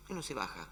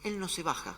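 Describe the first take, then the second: First: Much softer, lower echo; quiet. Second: Said in the usual way. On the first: Acted. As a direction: repeat it softly as a quiet certainty. Repetición enfática. (repetición en voz baja)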